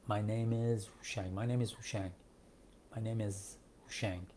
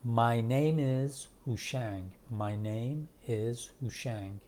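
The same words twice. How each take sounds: First: "my name is" run together, softer; quick, linked form. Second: "My name is" very slow, each word drawn out; slow full form. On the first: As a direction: say "my name is هوشنگ" as one quick connected phrase. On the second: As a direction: spell out "My name is هوشنگ" word by word, unhurried. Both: Shown as a demonstration.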